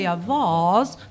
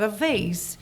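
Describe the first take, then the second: First: It is said in an English accent. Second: It is said in a non-English accent.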